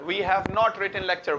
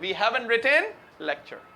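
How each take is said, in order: First: Have not is said as two full words. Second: Have not merges into haven't, final t silent.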